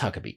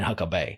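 First: The name ends with a 'bee' sound. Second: The name ends with a 'bay' sound. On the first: "it's Huckabee" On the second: "Some people say it that way, but I'm like, ... I ain't saying Huckabay"

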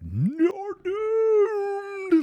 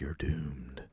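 First: It is said in an exaggerated, theatrical way. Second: It is said in a restrained, understated way.

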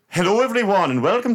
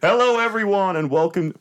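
First: It is said in an Irish-sounding accent. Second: It is said in the speaker's plain accent.

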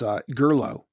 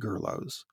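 First: The name ends on a vowel with no 'eez'. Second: The name ends with an audible 'eez' syllable. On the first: It is read as a French name. The speaker calls it right. "Marcus points out it's not Greek, it's French" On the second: It is read as if the name were Greek. The speaker calls it wrong. "Most English speakers, I suspect, pronounce it Gerloes"

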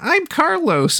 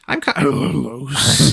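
First: It is said in a higher, unbroken voice. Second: It is said in a deep voice.

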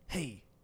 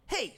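First: It is said in a radio host voice. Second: It is said in a sportscaster voice.

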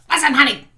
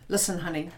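First: The tone is harsh and irritated. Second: The tone is calm and gentle. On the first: The speaker is triggered and reactive. The speaker calls it wrong. "And it wouldn't be like this" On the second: The partner should feel valued and safe. The speaker calls it right. "it could be something as simple as this"

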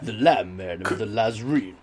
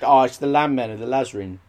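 First: It is said in a deep, portentous voice. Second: It is said in a plain, ordinary voice. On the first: The speaker calls it right. "You do need to say it in a certain tone of voice" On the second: The speaker calls it wrong. "You can't just"

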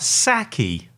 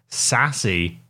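First: The middle consonant is a k sound. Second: The middle consonant is an s sound. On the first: This is the traditional Tupi pronunciation. "in the traditional Tupi language" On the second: This is the westernised pronunciation. "or as he's pronounced in the West"

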